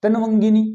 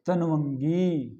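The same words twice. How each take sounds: First: तनवंगिनी loud and quick; wrong form. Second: तनवंगी slow, long final गी; correct form. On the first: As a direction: punch out तनवंगिनी without stretching. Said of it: "नहीं". (तनवंगिनी, अशुद्ध रूप, ज़ोर से) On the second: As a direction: draw तनवंगी out clearly, softer. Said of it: "इस प्रकार से". (तनवंगी का शुद्ध उच्चारण, खींचकर) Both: Shown as a demonstration.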